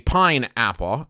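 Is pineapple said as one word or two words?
two words. It is split into two separate words. "you said it like it was two separate words"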